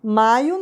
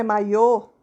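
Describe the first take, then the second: First: "maio" stressed on MAI; "maio" with a weak final o; stress on first syllable. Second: "maiô" stressed on the final Ô; "maiô" with the weight at the end; stress on final syllable. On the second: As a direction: land on a closed, strong ô in "maiô". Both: Shown as a demonstration. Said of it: "Tá vendo a diferença?".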